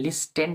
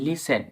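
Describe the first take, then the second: First: The t sound is pronounced in the middle. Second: The t sound is left out entirely. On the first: The speaker calls it wrong. "এখানে লিস্টেন্ট না" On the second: The speaker calls it right. "টি উচ্চারণ হয় না"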